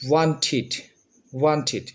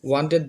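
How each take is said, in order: First: ওয়ান্টেড said "wantʰit" with an aspirated t and "it" ending; correct pronunciation. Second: ওয়ান্টেড said "wanted" with a hard "ted" ending; old pronunciation. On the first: Teacher drilling students on the new ending. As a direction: repeat ওয়ান্টেড ending in "thit". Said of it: "এখন আমরা উচ্চারণ করব". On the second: Teacher showing students the old way, hard "ted" ending. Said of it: "আগে আমরা বলতাম ওয়ান্টেড". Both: Shown as a demonstration.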